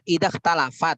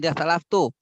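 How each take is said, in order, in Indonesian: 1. Kata kedua berakhir dengan bunyi 'at'. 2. Kata kedua berakhir dengan bunyi 'tu'. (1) "Aslinya idah talafat" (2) "Bukan idah talaf tuh"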